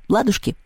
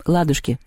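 First: Higher, questioning lilt; cheerful offer. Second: Resigned, falling agreement; sighing. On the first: House spirit proposing a riddle deal, cheerful asking. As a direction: toss it out as a friendly question. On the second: Anton accepting the riddle deal, resigned sigh. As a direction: give in with a small sigh. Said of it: "вздохнул Антон". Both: A narrator's reading.

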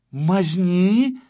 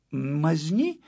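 First: Loud, high, indignant question; outraged echo. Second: Hesitant, puzzled question, rising; embarrassed. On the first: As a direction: throw the word back in outrage. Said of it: "переспросил Тюбик". (возмущённо переспрашивая) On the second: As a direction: ask it with mild embarrassment. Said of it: "спросил смущённый Ластик". (смущённо, растерянно) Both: A narrator's reading.

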